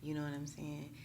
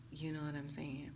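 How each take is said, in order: Both takes have the same delivery.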